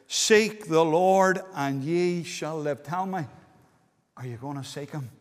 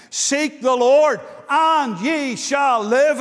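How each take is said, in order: First: Earnest quiet plea. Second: Loud, slow, ringing proclamation; proclaimed scripture. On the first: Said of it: "Oh, listen, there's a promise". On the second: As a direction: call the verse out slowly to the hall. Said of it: "it says". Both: Shown as a demonstration.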